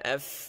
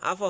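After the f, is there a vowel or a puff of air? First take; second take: air; vowel. First: The f is held with a puff of air. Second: A short u vowel follows the f. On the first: The speaker calls it right. "চাপ দিয়ে ধরতে হবে। আফ ওয়াজা আফ একটু বাতাস বের হবে" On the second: The speaker calls it wrong. "আফু আফু আফু হবে না"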